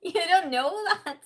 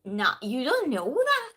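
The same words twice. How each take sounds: First: Higher, louder amused repeat; teasing contradiction, pitched up and laughing; laughing mock retort. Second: Loud, swooping teasing contradiction; playful singsong pushback; mock retort. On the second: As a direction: imitate yourself contradicting him, up and down in pitch. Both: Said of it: "I was just".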